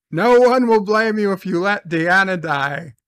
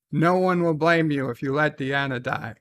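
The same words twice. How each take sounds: First: Said again louder and with more force; emphatic repeat. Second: Said in the usual way. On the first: Shown as a demonstration. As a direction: push it home the second time, louder.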